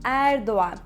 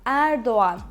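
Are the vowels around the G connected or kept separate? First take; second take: connected; connected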